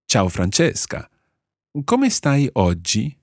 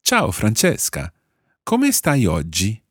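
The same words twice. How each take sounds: First: Ciao, Francesca and Come stai oggi repeated slowly, a touch higher on Come; slow second model of the greeting; Italian model phrase. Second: Ciao, Francesca and Come stai oggi said slowly and clearly; slow, clear Italian greeting; Italian model phrase. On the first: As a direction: say the greeting again for learners to copy. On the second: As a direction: model the greeting for learners to repeat. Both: Shown as a demonstration. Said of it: "you would say".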